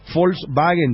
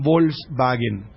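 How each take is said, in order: First: It is pronounced the German way. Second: It is pronounced the Spanish way. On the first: The speaker calls it right. "Volkswagen dicen ellos. Pronunciación alemana" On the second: The speaker calls it wrong. "no dicen Volkswagen"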